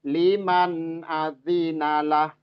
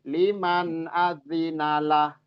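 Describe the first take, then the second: No difference in how they are said.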